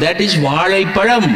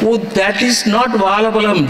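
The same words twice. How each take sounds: First: வாழைப்பழம் said the English way, "vaalaipadam", higher and quick; anglicised pronunciation. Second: Mock English gentleman, higher and quick; Englishman correcting. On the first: Acted. Englishman correcting a Tamil man, saying வாழைப்பழம் in an English way. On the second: Englishman correcting a Tamil man, lightly mocked and higher. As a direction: lightly play a prim Englishman setting him right. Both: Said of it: "An Englishman is correcting a Tamil man".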